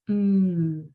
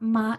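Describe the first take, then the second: First: The lips stay closed with a steady hum. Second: The lips open and a vowel follows. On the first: The speaker calls it right. "it's mm" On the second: The speaker calls it wrong. "the sound for M is not ma"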